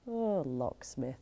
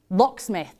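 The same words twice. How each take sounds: First: Soft, low, slow sigh on LOCKSMITH; wistful longing. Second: Sudden recall. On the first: Thinking back on her old crush, wistful longing. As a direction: sigh out LOCKSMITH, dreamily drawn out. Sighs over the remembered crush. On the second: Remembering an old crush's name, sudden recall. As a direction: say LOCKSMITH as the name comes back. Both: Acted.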